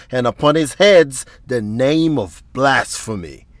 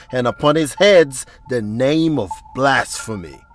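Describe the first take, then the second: No difference in how they are said.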